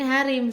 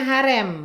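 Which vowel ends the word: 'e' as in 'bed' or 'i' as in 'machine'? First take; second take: i; e. First: The last vowel is a high 'i' sound. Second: The last vowel is an open 'e' sound. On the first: This is how it is said locally. "Kalau di sini harim" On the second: This is how it is said in Java. "Kalau di Jawa manggilnya harem"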